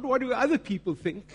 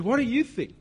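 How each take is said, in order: First: "other people" lifted higher, set up for contrast; stress on OTHER PEOPLE. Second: "you" punched high, then falling away; stress on YOU. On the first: Challenging believers, stress on "other people". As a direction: put the weight on "other people". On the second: Challenging believers directly, stress on "you". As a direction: hit "you" hard to turn the question round. Contrasts others' opinion with yours. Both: Real, not acted.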